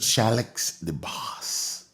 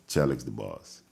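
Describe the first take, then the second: First: It is said loudly with strong emphasis. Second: It is said plainly, without extra emphasis. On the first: The speaker calls it right. "you gotta say that with some emphasis" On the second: The speaker calls it wrong. "You can't just say Chalix the boss"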